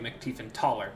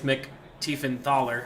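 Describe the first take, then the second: First: The middle consonant is a plain t sound. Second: The middle consonant is a th sound. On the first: The speaker calls it wrong. "I've been pronouncing it" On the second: The speaker calls it right. "Apparently it's"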